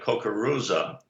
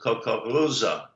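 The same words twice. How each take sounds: First: The R is a plain, non-guttural sound. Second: The R is a guttural sound. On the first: "the word like kukuruza" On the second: "they would pronounce it kukuruza"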